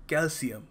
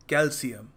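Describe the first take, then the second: The two takes are said the same way.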